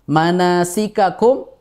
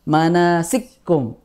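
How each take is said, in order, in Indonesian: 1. Kedua konsonan dilafalkan terpisah beserta vokalnya. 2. Kedua konsonan menyatu menjadi satu bunyi ganda.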